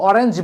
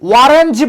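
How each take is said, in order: First: The word begins with a plain vowel. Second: The word begins with a w sound. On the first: The speaker calls it right. "অরেঞ্জ বলো।" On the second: The speaker calls it wrong. "তুমি কি কখনো বলো ওয়ারেঞ্জ?"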